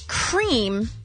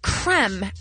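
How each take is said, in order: First: The vowel is long, as in 'team'. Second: The vowel is short, as in 'them'. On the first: The speaker calls it wrong. "it's cream as in team" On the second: The speaker calls it right. "or is it creme as in them?"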